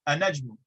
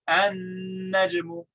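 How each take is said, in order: First: The n is short, with no extra length. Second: The n is held for an extra beat. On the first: It sounds like a question. The speaker calls it wrong. "It would not be clear if we just said a najmu" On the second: It is a plain statement of the word. The speaker calls it right. "we add an extra beat of duration"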